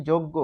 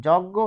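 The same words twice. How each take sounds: First: যজ্ঞ with rounded first vowel, "jog-go"; যজ্ঞ with a closed o in both syllables; shown pronunciation. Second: যজ্ঞ with open first vowel, "jawg-go"; যজ্ঞ with an open অ at the start; as spelt. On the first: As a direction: say যজ্ঞ as "joggo". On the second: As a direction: say যজ্ঞ as "jɔggo". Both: Shown as a demonstration. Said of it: "কেন এরকম হলো".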